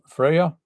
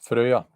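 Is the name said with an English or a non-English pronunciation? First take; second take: English; non-English. First: The name is said with an English pronunciation. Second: The name is said with a non-English pronunciation. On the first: "use the English pronunciation of Freya" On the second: "No, I can't say that"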